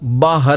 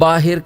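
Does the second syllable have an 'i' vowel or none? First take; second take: none; i vowel. First: The second syllable has a short 'a' vowel. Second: The second syllable has an 'i' vowel. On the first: The speaker calls it right. "असल तलफ़ुज़ बाहर है" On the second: The speaker calls it wrong. "हमारे यहाँ आम तौर पर बोला जाता है"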